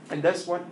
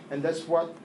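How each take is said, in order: Both takes have the same delivery.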